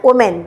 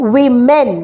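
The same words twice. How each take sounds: First: ওমেন said as O-men, with an O sound at the start; wrong pronunciation. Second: উইমেন said as WI-men, starting on a wi sound; correct pronunciation. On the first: Teacher showing the common mistake: ওমেন said O-men. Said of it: "it's wrong". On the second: Teacher giving the correct plural: উইমেন said WI-men. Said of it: "উচ্চারণটা হচ্ছে উইমেন". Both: Shown as a demonstration.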